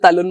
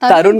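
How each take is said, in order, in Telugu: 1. ఈ పేరు L శబ్దంతో పలుకుతారు. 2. ఈ పేరు R శబ్దంతో పలుకుతారు. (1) "వాడికి ఇంకా సరిగ్గా పలకరాదు, సో తలున్ మామ అంటాడు" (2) "తరుణ్ కదా"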